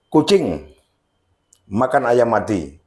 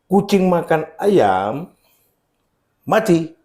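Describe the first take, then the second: First: The sentence runs on with no break. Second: There is a break before the word mati. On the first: The cat eats a chicken that was already dead. "Jadi ayam yang sudah mati" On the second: The cat eats the chicken and then dies. "Kucingnya mati"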